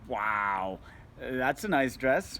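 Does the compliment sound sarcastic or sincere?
sarcastic. It is said in a mocking, sarcastic tone. The speaker is mocking the dress. The speaker calls it wrong. "now you're being a dick"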